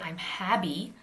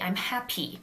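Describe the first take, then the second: First: The middle consonant is voiced like a B. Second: The middle P is released with a puff of air. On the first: "It's not a B, you don't say I'm happy" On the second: "do you aspirate it? No, you don't say happy"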